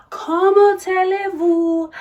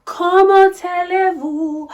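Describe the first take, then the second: First: Higher, loud, hammed-up French; mock French diva greeting. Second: High, loud, hammed-up French; mock French diva greeting. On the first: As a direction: repeat the hello even grander. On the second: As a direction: sing out a grand French hello.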